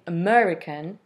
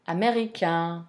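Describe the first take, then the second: First: "American" stressed on the second syllable, English way. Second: "américain" in French, last syllable lengthened; French final stress. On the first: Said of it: "stressed on the first or second syllable". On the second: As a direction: say "américain" the French way, weight on the ending. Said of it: "we have the final syllable, uh, lengthened". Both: Shown as a demonstration.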